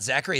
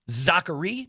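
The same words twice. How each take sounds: First: The name is pronounced the English way. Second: The name is pronounced the French way. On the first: The speaker calls it wrong. "not Zachary" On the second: The speaker calls it right. "if you want to be Frenchy about it"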